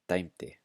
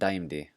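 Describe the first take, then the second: First: The middle consonant sounds like a T. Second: The middle consonant sounds like a D. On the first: The speaker calls it right. "The next one, daimti" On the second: The speaker calls it wrong. "not daimdi"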